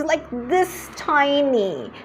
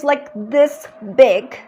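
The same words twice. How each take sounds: First: Slow, small this tiny; slow emphatic this tiny; drawn-out tiny. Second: Slow, stretched this big; slow emphatic this big; drawn-out big. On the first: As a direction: stretch it out to show something minuscule. Showing a tiny problem. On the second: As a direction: stretch the words to show a huge problem. Showing a big problem with her hands. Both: Shown as a demonstration.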